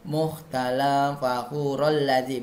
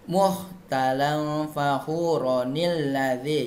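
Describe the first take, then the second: First: No nun sound links the words. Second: An extra nun sound links the words. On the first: The speaker calls it wrong. "Jangan cara bacanya ... bukan" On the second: The speaker calls it right. "Jadi bacanya muhtalan fakhuronil lazi"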